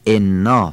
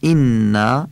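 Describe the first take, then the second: First: The kasra vowel is pronounced the Persian way. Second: The kasra vowel is pronounced the Arabic way. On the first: The speaker calls it wrong. "اینا فارسیه" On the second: The speaker calls it right. "اینا میشه عربی"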